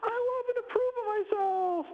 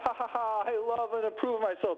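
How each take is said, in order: First: It is said in a funny put-on voice. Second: It is said while laughing.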